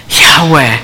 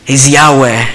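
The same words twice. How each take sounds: First: "Yahweh" spoken as a gentle breath, no hard sounds. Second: Said in the usual way. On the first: Shown as a demonstration. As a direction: let "Yahweh" be just a breath. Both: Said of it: "because it's just a breath".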